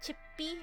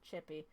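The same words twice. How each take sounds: First: The voice goes slightly higher on the word. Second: The word is said at a plain, ordinary pitch. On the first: "you raise your voice like a tiny bit" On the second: "I can't say it just chippy"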